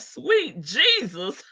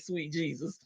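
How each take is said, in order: First: It is said imitating Shirley's voice. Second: It is said in her normal voice.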